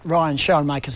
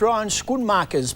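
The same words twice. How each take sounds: First: The surname is pronounced with English sounds. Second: The surname is pronounced with Dutch sounds. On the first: "but Ryan Schoenmakers is who I'm talking about" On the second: "that's the pronunciation according to our Dutch floor manager"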